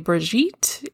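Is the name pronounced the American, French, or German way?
French. The name is pronounced the French way. "If you're French, you can say Brigitte"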